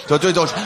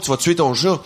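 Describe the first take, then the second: First: Repeated warning yell. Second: Warning yell. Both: Retold or imitated. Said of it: "Je suis comme".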